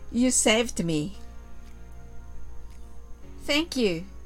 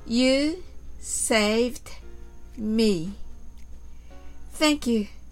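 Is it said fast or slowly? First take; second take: fast; slowly. First: It is said much faster. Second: It is said at a slower pace.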